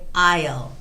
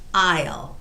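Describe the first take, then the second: First: It is said as one short contracted word. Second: The same.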